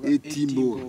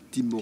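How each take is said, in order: First: The word starts with an added e vowel. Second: The word starts directly with the t sound. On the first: The speaker calls it right. "on dit et Timbour" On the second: The speaker calls it wrong. "on ne dit pas Timbour"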